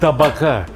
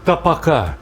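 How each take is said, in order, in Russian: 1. Средний согласный — звонкий звук б. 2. Средний согласный — глухой звук п. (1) "именно табака" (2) "никаких тапака"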